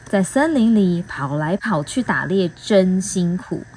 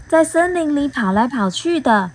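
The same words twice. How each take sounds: First: Said in the usual way. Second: Lightly higher little bee voice; a hint of a curious bee; bee asking. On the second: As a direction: ask it as the small bee. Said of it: "蜜蜂问".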